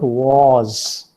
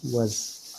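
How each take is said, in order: First: "was" loud and drawn out with a long open vowel; heavy, full-vowel "was"; strong form. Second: "was" softer and short, vowel reduced; small, quick, unaccented "was"; weak form. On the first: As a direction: stretch "was" into a stressed wawz. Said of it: "It is a strong form". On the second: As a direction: say "was" lightly as an unstressed wuhz. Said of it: "But weak form is". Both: Shown as a demonstration.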